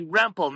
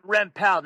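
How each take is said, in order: First: "Rempel" stressed on the first syllable; "Rempel" with a weak, reduced ending; correct surname. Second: "Rempel" stressed on the last syllable; "Rempel" with a full "pell" ending; mispronounced surname. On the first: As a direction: say "Rempel" as REM-pull. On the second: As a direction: say "Rempel" wrongly as rem-PELL. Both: Retold or imitated. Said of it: "not Rempel".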